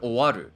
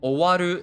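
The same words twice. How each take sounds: First: The pitch rises and then drops again. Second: The pitch starts low, rises and stays high. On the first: The speaker calls it wrong. "instead of" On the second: The speaker calls it right. "the first kana must start low and everything goes high and stays high"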